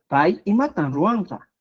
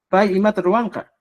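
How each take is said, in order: First: Pai y matan ruanka, adding the N to matan for music; lilting Pai y mata ruanca with an added n; with rhythm. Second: Pai y mata ruanca said dry, without the N sound; blunt, matter-of-fact Pai y mata ruanca; cold plain question. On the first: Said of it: "esta N le da ese ritmo, esa música". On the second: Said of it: "mi expresión suena más seco, mi expresión es más fría". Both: Shown as a demonstration.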